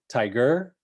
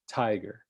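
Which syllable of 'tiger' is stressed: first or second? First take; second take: second; first. First: The stress is on the second syllable. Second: The stress is on the first syllable. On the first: "the stress would be on the second syllable, and that doesn't sound right" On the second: "opening with a stress"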